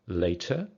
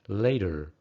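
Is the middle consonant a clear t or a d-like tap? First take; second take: clear t; d-like tap. First: The middle consonant is a clear t. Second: The middle consonant is a d-like tap. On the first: "British English" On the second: "American English"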